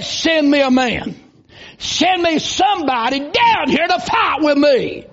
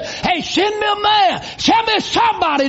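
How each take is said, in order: First: Booming challenge from a giant, called across the valley; giant's taunt. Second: A high shouted taunt on the first words, then back near normal; giant's shout. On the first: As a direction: bellow the dare like a giant, slow. Giant taunting Israel's army. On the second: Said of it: "that Philistine giant would say". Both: Retold or imitated.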